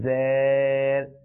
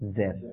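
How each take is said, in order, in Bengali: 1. স্বরটি টানা, দীর্ঘ। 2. স্বরটি ছোট রাখা হয়। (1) "জের ভুল" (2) "আমাদের উচ্চারণটা কেমন হবে"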